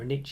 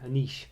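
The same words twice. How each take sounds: First: It is said in an American accent. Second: It is said in a British accent.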